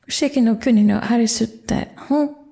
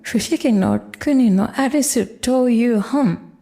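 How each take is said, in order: First: Only the short form 'te' comes before 'hon'. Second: The full form 'to iu' comes before 'hon'.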